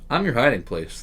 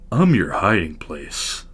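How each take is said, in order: First: It is read in a normal speaking voice. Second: It is said in a deep, whispered voice.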